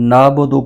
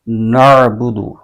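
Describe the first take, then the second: First: It has a light glottal stop before 'bu'. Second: It has a deep throat sound before 'bu'. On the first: The speaker calls it wrong. "नाबुदु पढ़ते हैं हमज़ा की आवाज़ के साथ" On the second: The speaker calls it right. "यहाँ पर आइन की आवाज़ निकलनी चाहिए"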